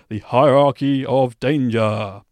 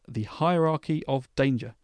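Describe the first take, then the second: First: The phrase is said in a grand, dramatic voice. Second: The phrase is said in a plain, ordinary voice.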